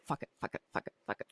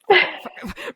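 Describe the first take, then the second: First: Whispered under the breath, over and over; mumbled whisper. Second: Outburst. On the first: Walking through the house, whispering to silence the eating disorder voice. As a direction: mutter it to yourself like a chant. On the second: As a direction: let it burst out at last. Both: Retold or imitated. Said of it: "and I'm mumbling".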